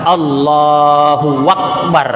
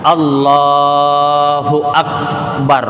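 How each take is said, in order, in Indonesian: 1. Bunyi w ditambahkan sebelum Akbar. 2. Akbar langsung dimulai dengan vokal. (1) "jangan ditambah" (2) "kita mengatakan Allahu Akbar"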